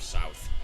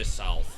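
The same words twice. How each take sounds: First: The word has no L sound inside. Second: The word has a faint L sound inside.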